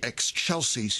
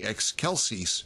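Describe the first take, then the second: First: The word is said in the familiar church style. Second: The word is said in classical Latin style. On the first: The speaker calls it wrong. "You wouldn't say Excelsis" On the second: The speaker calls it right. "you would say Excelsis in classical"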